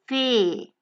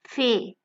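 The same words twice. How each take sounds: First: The vowel is held long. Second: The vowel is cut short. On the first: The speaker calls it right. "the occurrence of the vowel A twice together will lengthen the pronunciation" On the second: The speaker calls it wrong. "and not fee"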